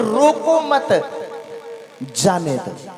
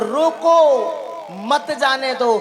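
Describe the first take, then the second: First: There is a pause after the second word. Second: There is a pause after the first word.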